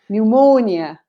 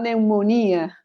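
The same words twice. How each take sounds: First: The stress falls in the English place. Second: The stress falls in the Spanish-like place. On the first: The speaker calls it right. "So it's the same here" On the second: The speaker calls it wrong.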